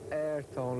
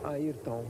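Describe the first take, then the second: First: The name is said with English-speaking pronunciation. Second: The name is said with Portuguese pronunciation. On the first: The speaker calls it wrong. "it's not Ayrton like all Americans or English people used to say" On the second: The speaker calls it right. "It's Ayrton"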